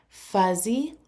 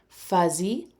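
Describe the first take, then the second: The two takes are said the same way.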